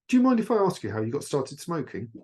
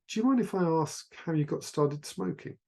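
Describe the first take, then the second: First: It sounds harsh, rushed and aggressive. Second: It sounds calm, relaxed and nonchalant.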